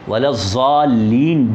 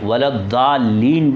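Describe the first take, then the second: First: The middle consonant sounds like a z. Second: The middle consonant is a light, thin d. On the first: "वलज़्वालीन भी गलत है" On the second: "वलद्दालीन भी गलत है"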